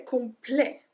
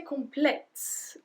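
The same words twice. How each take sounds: First: "complet" ending on an open eh, no T; silent T. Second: "complete" with the final T sounded; T pronounced. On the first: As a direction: drop the final t of "complet". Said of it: "we don't pronounce the T". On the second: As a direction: end "complete" on an audible t. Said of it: "we don't say complete". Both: Shown as a demonstration.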